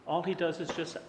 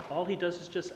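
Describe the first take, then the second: No difference in how they are said.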